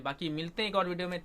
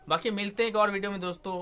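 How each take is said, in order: First: Said in the usual way. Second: Quicker, higher and louder cheerful goodbye; upbeat sign-off. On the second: Real, not acted. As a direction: brighten up and rush the farewell to viewers. Upbeat outro sign-off to viewers.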